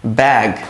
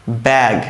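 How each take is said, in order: Both takes have the same delivery.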